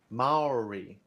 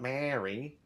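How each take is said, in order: First: It sounds like 'mah-oh-ree', with separate vowels. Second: It sounds like the name Mary. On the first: The speaker calls it right. "not Mary. Maori" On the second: The speaker calls it wrong. "not Mary"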